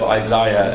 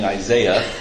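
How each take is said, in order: First: The name is said with a British pronunciation. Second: The name is said with an American pronunciation. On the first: "instead of Isaiah, as the British do" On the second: "my American accent and constantly saying Isaiah"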